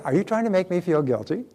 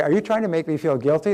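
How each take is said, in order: First: Light, cheerful question, raised pitch; a breezy, friendly "are you trying to make me feel guilty". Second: Said in the usual way. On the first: Shown as a demonstration. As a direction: ask it brightly, no edge at all. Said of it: "just say it with a cheerful voice". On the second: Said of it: "the third time you say".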